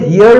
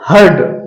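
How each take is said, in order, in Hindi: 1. इसका स्वर 'here' वाले स्वर जैसा है। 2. इसका स्वर 'her' वाले स्वर जैसा है। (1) "हियर्ड हियर्ड नहीं, गलत है।" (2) "हर्ड हर्ड।"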